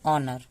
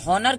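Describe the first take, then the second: First: The word begins directly with a vowel. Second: The word begins with an h sound. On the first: The speaker calls it right. "एच silent होगा" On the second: The speaker calls it wrong. "हम हॉनर क्यों नहीं पढ़ते हैं"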